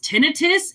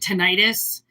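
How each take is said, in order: First: The word is said exactly as it's spelled. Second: The word is said the common popular way. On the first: The speaker calls it right. "exactly the way that it's spelled" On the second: The speaker calls it wrong. "most people would pronounce it tinnitus"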